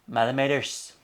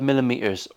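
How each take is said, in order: First: It is said in a Northern Irish accent. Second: It is said in the speaker's usual accent.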